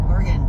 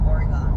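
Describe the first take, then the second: First: The word ends reduced, sounding like 'organ'. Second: The same.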